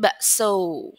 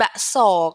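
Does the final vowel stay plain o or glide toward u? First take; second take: glide to u; plain o. First: The final vowel glides from o toward u. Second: The final vowel stays a plain o. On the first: The speaker calls it right. "ada tambahan u-nya di belakangnya" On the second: The speaker calls it wrong. "Bukan bakso"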